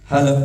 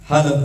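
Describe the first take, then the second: Both takes have the same delivery.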